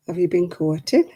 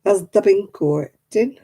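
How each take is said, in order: First: Said in the usual way. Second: "bin" for "been" in broad Oldham; light Oldham dialect; Oldham accent. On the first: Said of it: "Has the bin courting?". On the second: Shown as a demonstration. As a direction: drop into Oldham dialect for "Has the bin courting". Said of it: "They say things like".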